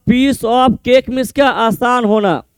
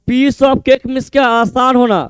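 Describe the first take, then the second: No difference in how they are said.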